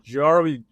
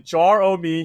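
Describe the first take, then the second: First: Said quickly, run together as one word. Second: Said slowly as three separate parts.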